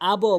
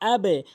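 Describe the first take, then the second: First: The final bounce is pushed upward. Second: The final bounce is pushed downward. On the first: The speaker calls it wrong. "আবো বলবো না" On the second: The speaker calls it right. "বা নিচের দিকে ধাক্কা"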